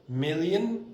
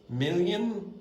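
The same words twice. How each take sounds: Both takes have the same delivery.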